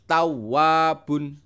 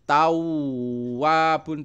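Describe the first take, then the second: First: The wa syllable is stressed but short. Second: The wa syllable is drawn out long. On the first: The speaker calls it right. "tapi harus tawwabun" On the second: The speaker calls it wrong. "Tawwabun tidak boleh seperti itu"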